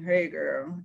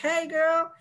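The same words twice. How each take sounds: First: It is said in a flat, low-spirited way. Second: It is said in a cheerful, upbeat way.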